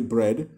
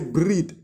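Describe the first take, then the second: First: The word has the speaker's usual short vowel. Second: A strong r is followed by an 'ee'-like vowel. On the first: This is how the speaker normally says it. "like I would say bread" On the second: This is how people from the south say it. "they say breed. So it's more of an e sound after the strong r"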